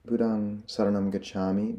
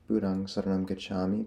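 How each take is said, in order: First: It is recited at a normal, unhurried pace. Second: It is recited quickly.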